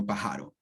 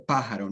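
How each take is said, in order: First: "pájaro" wrongly stressed on JA, pa-JA-ro; stress moved to middle. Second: "pájaro" with the beat on PÁ; stress on first syllable. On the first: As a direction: misplace the beat onto the middle syllable of "pájaro". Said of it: "Se dice pájaro". ("pájaro" mal acentuado, como llana: pajáro) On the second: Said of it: "I am the stress syllable". ("pájaro" esdrújula, golpe de voz en pá) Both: Shown as a demonstration.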